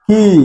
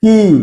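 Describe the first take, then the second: First: The word sounds like key. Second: The word sounds like key.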